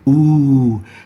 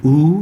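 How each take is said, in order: First: The vowel is held for a long time. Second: The vowel is held for a short time. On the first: "we'll say ooh" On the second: "Instead of saying ooh"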